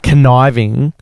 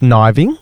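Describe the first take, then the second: First: It starts with a full 'kuh-n' syllable. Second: It starts with a plain 'n' sound. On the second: "should be pronounced kniving"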